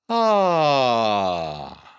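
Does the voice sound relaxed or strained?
relaxed. The sigh sounds relaxed and free. The speaker calls it right. "here's how it sounds when done right"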